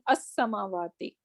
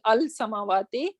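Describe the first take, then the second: First: The l merges into a doubled s sound. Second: The l sound is pronounced before the s. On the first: The speaker calls it right. "Rather, we are saying as-samawati" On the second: The speaker calls it wrong. "We are not saying al-samawati"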